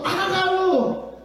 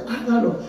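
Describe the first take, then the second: First: HÁGALO high and drawn out; emphatic urging. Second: Said in the usual way. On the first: Real, not acted. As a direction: stretch "hágalo" out on a raised pitch. Repeated urging builds to a climax.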